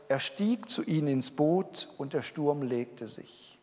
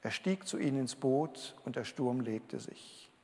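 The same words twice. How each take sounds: First: Slow, deliberate reading of the verse; unhurried scripture reading, words spaced out. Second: The verse again, much softer; hushed echo of the verse; quiet repeat. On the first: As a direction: savour each word as you read it aloud. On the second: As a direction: let it sink in, softly. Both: Shown as a demonstration. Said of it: "mit dem schönen Vers".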